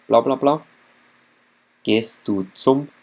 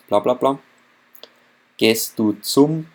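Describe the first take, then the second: No difference in how they are said.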